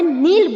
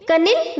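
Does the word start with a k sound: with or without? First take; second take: without; with. First: The word starts without a k sound. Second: The word starts with a k sound. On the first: The speaker calls it right. "इसका भी के silent है, हमें नील बोलना है।" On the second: The speaker calls it wrong. "कनिल नहीं pronounce करना है।"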